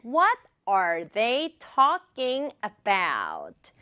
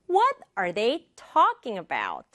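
First: Very slow, evenly spaced words. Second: "What" and "talking" punched, the rest light; stress on "What", "talking". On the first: Teacher introducing sentence three, slow word by word. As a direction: spell out "What are they talking about" word by word. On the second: Teacher demonstrating rhythm, stress on "What" and "talking". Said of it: "두 개만 강조할 단어". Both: Shown as a demonstration.

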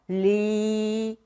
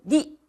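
First: "리" drawn out long as air flows past the tongue; flowing ㄹ. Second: "리" cut short with the air stopped; blocked ㄹ. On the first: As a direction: say "리" slowly, letting the vowel stream out. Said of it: "공기가 흘러나오죠". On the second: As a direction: say "리" tensely, choking off the flow. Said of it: "공기를 막아버려요". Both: Shown as a demonstration.

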